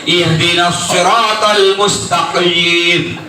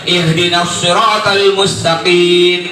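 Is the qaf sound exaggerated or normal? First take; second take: exaggerated; normal. First: The qaf is exaggerated, like a cooing bird. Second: The qaf is pronounced plainly without exaggeration. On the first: The speaker calls it wrong. "sampai bunyi kayak burung perkutut" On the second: The speaker calls it right. "yang betul ... Biasa"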